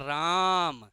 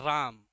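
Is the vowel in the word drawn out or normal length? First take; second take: drawn out; normal. First: The vowel is stressed and drawn out long. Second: The vowel is said at normal length.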